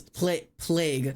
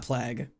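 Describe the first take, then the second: First: Slow plague with a long A; correct plague. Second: Plague with a short a, like plag; wrong plague. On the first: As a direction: stretch plague out as play-g. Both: Shown as a demonstration. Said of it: "not plague".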